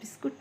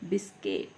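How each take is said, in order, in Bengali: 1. দ্বিতীয় সিলেবলে 'u' স্বরধ্বনি আছে। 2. দ্বিতীয় সিলেবলে 'i' স্বরধ্বনি আছে। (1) "বিস্কুট না" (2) "বলবেন বিস্কিট। ... এটা হচ্ছে মডার্ন ওয়ার্ড।"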